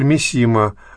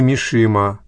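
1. Средний согласный — простой звук s. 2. Средний согласный — звук sh. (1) "Есть писатель Мисима" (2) "а не Мишима"

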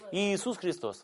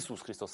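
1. Имя начинается с двух отдельных звуков 'i'. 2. Имя начинается с одного звука 'i'. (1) "как в Евангелии написано, в греческом тексте" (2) "в 17 веке говорили Иисус Христос, одним И"

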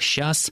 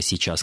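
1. Слово сжато до одного слога. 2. Слово произносится полностью, в два слога. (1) "как «щас»" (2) "слова «сейчас»"

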